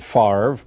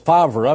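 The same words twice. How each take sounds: First: The name is said differently from its spelling. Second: The name is sounded out following its spelling. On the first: "but they pronounce it Favre" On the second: "It's Favre"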